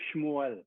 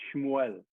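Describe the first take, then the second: Both takes have the same delivery.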